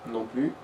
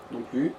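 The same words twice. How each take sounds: The two takes are said the same way.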